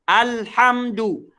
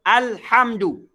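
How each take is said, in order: Both takes have the same delivery.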